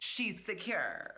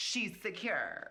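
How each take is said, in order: First: It is said in a sassy put-on voice. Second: The same.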